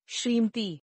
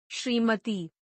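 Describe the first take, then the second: First: श्रीमती squeezed to "shreemti"; mispronounced. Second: Said in the usual way. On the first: Shown as a demonstration. Teacher showing an error, mispronounced without the middle vowel. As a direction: drop the vowel after m in श्रीमती. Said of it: "अशुद्ध". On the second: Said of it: "शुद्ध".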